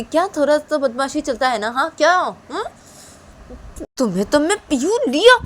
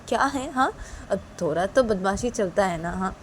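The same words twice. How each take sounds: First: Much higher, louder, sneering repeat of थोड़ा तो बदमाशी चलता है ना; angry mocking echo. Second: Casual shrug-off. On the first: Mother mocks husband's excuse, angry. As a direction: throw his words back at him. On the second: Acted. Father shrugs off wife's complaint, casual. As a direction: brush it off lightly.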